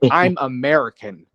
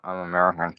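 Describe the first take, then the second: First: It is said confidently and proudly. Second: It is said hesitantly and timidly. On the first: The speaker is happy to announce it. The speaker calls it right. "They're going to say" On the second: The speaker is afraid to admit it. The speaker calls it wrong. "you're not going to have Americans say"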